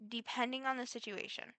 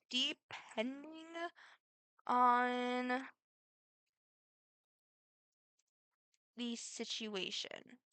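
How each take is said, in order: First: Said in the usual way. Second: Very slow, stretched words with long pauses; drawn-out hesitation. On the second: Real, not acted. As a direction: stall on each word, leaving big gaps. Drawn-out, hesitant answer, then said normally.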